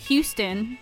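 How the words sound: Houston is pronounced the way UK speakers say it. This is how people from the UK say the name. "they say Houston"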